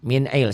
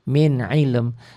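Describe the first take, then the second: First: The final m sound is left off. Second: The final m sound is clearly pronounced. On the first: The speaker calls it wrong. "Banyak orang yang baca ... Salah, artinya lain" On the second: The speaker calls it right. "Jadi dibacanya min ilm"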